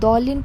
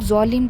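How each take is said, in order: First: The word begins with a 'd' sound. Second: The word begins with a 'z' sound. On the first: The speaker calls it right. "दौलिन पढ़ने की जगह" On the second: The speaker calls it wrong. "वो लोग ज़ौलिन पढ़ते हैं"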